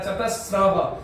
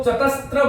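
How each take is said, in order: First: चतस्रः said with a plain स followed by र, no त between them; careful चतस्रः with the cluster स्र; correct Sanskrit pronunciation. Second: चतस्त्र said with an extra त slipped in before र; common mispronunciation. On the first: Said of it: "ये स में र है बंधुओं". (चतस्रः का शुद्ध उच्चारण, स के बाद सीधा र) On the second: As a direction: demonstrate the wrong चतस्त्र with स्त्र. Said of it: "इसको कुछ लोग चतस्त्र बोल देते हैं". (चतस्त्र का गलत उच्चारण, बीच में त जोड़कर) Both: Shown as a demonstration.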